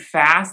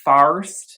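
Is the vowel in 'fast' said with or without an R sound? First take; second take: without R; with R. First: The vowel is said without an R sound. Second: The vowel is said with an R sound. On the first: The speaker calls it right. "instead of saying fast" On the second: The speaker calls it wrong. "he sounds like he says farst"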